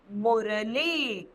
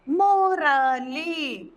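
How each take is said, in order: First: मुरली said slowly with a short u, falling; slow clear word. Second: मोरली stretched out very slowly, syllable by syllable; slow drawn syllables. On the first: Teacher to children, slow clear मुरली. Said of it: "ल में हमने ई की मात्रा". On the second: Teacher sounding out for children, very slow मोरली. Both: Shown as a demonstration.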